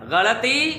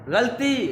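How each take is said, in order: First: An 'a' vowel follows the l sound. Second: No vowel follows the l sound. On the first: The speaker calls it right. "लाम पर ज़बर के साथ पढ़ना है" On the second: The speaker calls it wrong. "लाम पर जज़्म के साथ नहीं पढ़ना"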